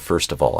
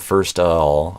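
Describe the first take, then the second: First: The V sound in 'of' is pronounced. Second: The V sound in 'of' is dropped. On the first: The speaker calls it right. "I go first of all. I need the V" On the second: The speaker calls it wrong. "I don't go first of all"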